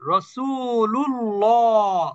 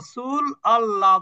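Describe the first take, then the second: First: The l runs straight into llah without a break. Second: Allah is said separately with its own initial vowel. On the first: The speaker calls it right. "যেমন রসুলুল্লাহ" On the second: The speaker calls it wrong. "এখানে বলা যাবে না"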